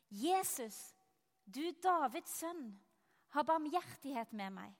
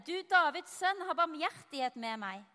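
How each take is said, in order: First: Restrained cry for mercy, read aloud; mild calling out. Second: Raised, higher cry for mercy; louder calling out. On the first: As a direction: call out with understated urgency. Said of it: "så satte han i å rope". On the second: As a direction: call out insistently over the crowd, voice lifted. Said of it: "ropte bare enda høyere". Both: A narrator's reading.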